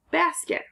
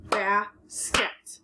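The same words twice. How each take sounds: First: Basket said much higher, bright final blend; chirpy teacher announcing basket; excited high reveal. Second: Said in the usual way. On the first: Shown as a demonstration. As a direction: pop basket up high like a discovery. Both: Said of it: "So I have".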